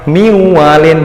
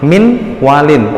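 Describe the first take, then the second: First: The n merges nasally into the w. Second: The n is pronounced clearly before the w. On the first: The speaker calls it right. "Tapi karena ini bigunah, akhirnya miwalin" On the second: The speaker calls it wrong. "Kalau belum belum tahu itu gom bigunah, maka dia akan bacanya min walin"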